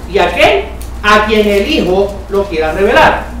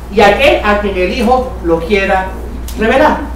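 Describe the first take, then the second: Both takes have the same delivery.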